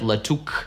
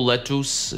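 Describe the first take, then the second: First: The second syllable ends in a 'k' sound, 'uk'. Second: The second syllable has an 'oo'-like vowel, 'us'. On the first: "никакого «к» здесь нет" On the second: "Никакого тут «у» нету"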